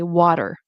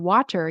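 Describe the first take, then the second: First: The middle t is a quick, soft flap. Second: The middle t is a clear, crisp t. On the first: The speaker calls it right. "you want to say" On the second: The speaker calls it wrong. "instead of saying like um"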